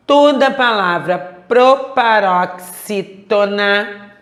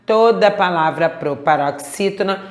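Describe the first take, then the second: First: Proparoxítona slowly sounded out syllable by syllable; slow emphatic. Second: Said in the usual way. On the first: Shown as a demonstration. Teacher giving an important rule to remember, slow and emphatic. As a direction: hammer out Toda palavra proparoxítona, piece by piece.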